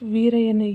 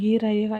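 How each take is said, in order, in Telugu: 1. ఈ పేరు v ధ్వనితో మొదలవుతుంది. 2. ఈ పేరు హల్లు లేని అచ్చుతో మొదలవుతుంది. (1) "వీరయ్యను ఈరయ్యగా ఈ విధంగా మనం పలుకుతాం" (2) "మిస్టేక్ పలుకుతున్నాం"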